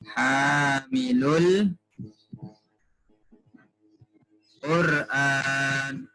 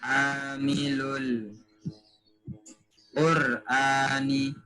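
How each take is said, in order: First: The phrase ends on the consonant n. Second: The phrase ends with an added vowel i. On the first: The speaker calls it wrong. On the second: The speaker calls it right.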